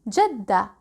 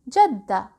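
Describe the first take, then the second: Both takes have the same delivery.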